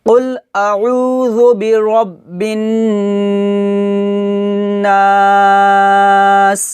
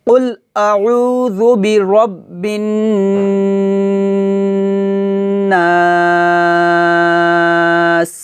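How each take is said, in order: The two takes are said the same way.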